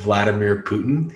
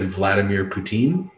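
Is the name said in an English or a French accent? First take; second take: English; French. First: The name is said in a plain English accent. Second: The name is said in a French accent. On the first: The speaker calls it right. "instead of" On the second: The speaker calls it wrong. "he said ... his French accent is so bad"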